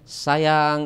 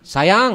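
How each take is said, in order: First: Said in a warm, tender tone. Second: Said in a harsh, irritated tone. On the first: The couple is happy together. "Kalau pas lagi eh, enak-enaknya, bahagianya" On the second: The couple is quarrelling. "kalau lagi marahan"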